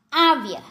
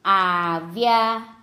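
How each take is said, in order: First: Said in the usual way. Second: આવ્યા very slowly, in two long syllables; slow word demonstration. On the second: Shown as a demonstration. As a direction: stretch out આવ્યા for learners. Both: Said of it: "જોડણી પર ધ્યાન આપજો".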